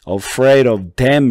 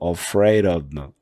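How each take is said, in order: First: Each word of "of them" is said fully. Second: The words "of them" are reduced and run together. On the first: The speaker calls it wrong. "이렇게 안 하고" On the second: The speaker calls it right. "이런 식으로 소리가 바뀌어요"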